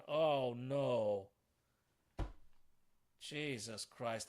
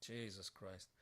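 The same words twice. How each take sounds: First: Slow dismayed groan. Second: Much softer, lower defeated mutter; muttered under breath. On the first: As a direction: stretch it out in despair. Groans over his mistake. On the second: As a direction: say it to yourself, crushed. Mutters after his blunder. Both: Real, not acted.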